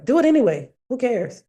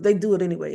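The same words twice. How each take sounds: First: Emphatic mantra. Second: Said in the usual way. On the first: Real, not acted. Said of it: "That's my mantra".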